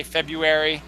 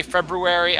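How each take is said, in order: First: February as FEB-yoo-ery; February without R. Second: February as FEB-roo-ery. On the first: Host admitting to both, FEB-yoo-ery for February. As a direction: drop the first R in February. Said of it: "I also say February". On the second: Host admitting to both, FEB-roo-ery for February. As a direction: sound the first R in February. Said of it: "I do both". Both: Shown as a demonstration.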